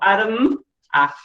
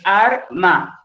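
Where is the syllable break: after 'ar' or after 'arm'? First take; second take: after arm; after ar. First: The word is split after arm. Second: The word is split after ar. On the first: The speaker calls it wrong. "Nunca tendríamos que decir" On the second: The speaker calls it right. "Es arma"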